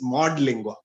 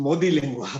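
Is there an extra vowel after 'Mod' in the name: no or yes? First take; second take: no; yes. First: No extra vowel follows 'Mod'. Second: An extra 'ee' vowel follows 'Mod'. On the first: The speaker calls it right. "it is Mod Lingua" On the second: The speaker calls it wrong. "by mistake I said"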